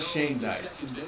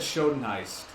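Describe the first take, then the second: First: The name sounds like 'Shane Diced'. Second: The name sounds like 'Schoenheist'. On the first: The speaker calls it right. "I'm glad I know that now" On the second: The speaker calls it wrong. "I always I always said Schoenheist"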